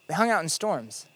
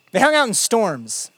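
First: "They hung out in storms" repeated softer, with stress on "hung"; hushed emphatic echo; quiet repeat. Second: Said in the usual way. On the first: Shown as a demonstration. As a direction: let it land softly, pressing on "hung". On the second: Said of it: "You know what Jesus and his friends were famous for".

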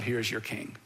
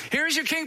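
First: Said in the usual way. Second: Mock proclamation. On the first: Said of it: "he says to the crowd". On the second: Pilate presents Jesus to the leaders, mock proclaiming. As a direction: announce it with a mocking lift. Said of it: "Pilate said to the Judean leaders".

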